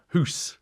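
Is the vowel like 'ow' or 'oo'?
oo. The vowel sounds like 'oo', Scottish style.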